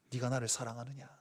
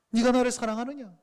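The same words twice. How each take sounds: First: Low, very soft questioning; hushed tender question. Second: Said in the usual way. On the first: Acted. Jesus softly asking Peter if he loves him, hushed. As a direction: ask gently, almost under the breath.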